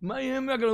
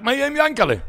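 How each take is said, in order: First: High but softer repeat; pleading echo. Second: High, loud cry for his brother; shout. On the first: Menish repeating his plea for Yankele, high and softer. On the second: Menish shouting for his brother Yankele, high and loud. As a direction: yell the question out, pitched high. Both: Retold or imitated. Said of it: "הוא צעק".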